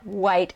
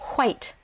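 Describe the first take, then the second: First: The word starts with a plain w sound. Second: The word starts with a breathy h-like sound. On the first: The speaker calls it wrong. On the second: The speaker calls it right.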